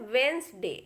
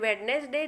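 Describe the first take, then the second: First: The d and middle syllable are dropped. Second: The d and middle syllable are pronounced. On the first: The speaker calls it right. "ये बोला जाता है वेंसडे" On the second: The speaker calls it wrong. "लेकिन pronunciation ये गलत है।"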